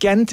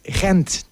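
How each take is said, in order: First: It begins with a hard G sound. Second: It begins with a guttural, throaty G sound. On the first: "Gent is the correct English pronunciation" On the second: "The way we pronounce it in Dutch is Gent"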